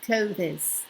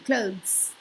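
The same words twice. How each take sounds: First: An extra vowel is inserted among the consonants. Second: The consonants are squashed together with no extra vowel. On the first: The speaker calls it wrong. "not clothes" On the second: The speaker calls it right. "you just have to like squash it all up together"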